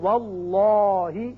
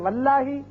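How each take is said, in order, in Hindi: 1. L की ध्वनि भारी और मोटे मुँह से बोली जाती है। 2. L की ध्वनि हल्की और पतली बोली जाती है। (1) "अगर जबर आए तो हम पढ़ेंगे वल्लाही" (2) "इसको अगर हम पढ़े वल्लाही तो यह गलत है"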